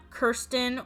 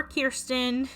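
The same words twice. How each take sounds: First: "Kirsten" with an ur vowel, KUR-stən; pronounced KUR-sten. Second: "Kirsten" with an ear vowel, KEER-stən; pronounced KEER-sten. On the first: Doll reviewer giving one side of the name debate, "Kirsten" said KUR-sten. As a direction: say "Kirsten" as KUR-sten, rhyming start with "her". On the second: Doll reviewer giving the other side of the name debate, "Kirsten" said KEER-sten. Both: Shown as a demonstration. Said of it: "whether or not it's pronounced".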